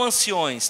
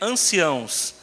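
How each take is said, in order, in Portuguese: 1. A palavra termina com o som 'ões'. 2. A palavra termina com o som 'ãos'. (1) "Não anciões" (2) "É anciãos"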